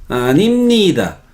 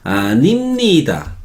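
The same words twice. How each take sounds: Both takes have the same delivery.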